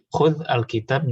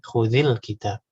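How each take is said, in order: First: The words are said separately, without a linking vowel. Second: The words are joined with a linking i vowel.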